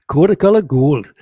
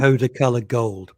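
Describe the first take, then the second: First: Loud, emphatic attempt at Geordie; Geordie accent. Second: Attempted Geordie catchphrase, mildly done; Geordie accent. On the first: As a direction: belt out a dubious Geordie catchphrase. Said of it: "That's how you know that you're a Geordie". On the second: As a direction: have an unsure stab at Geordie. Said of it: "the phrase to show you're a Geordie". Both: Shown as a demonstration.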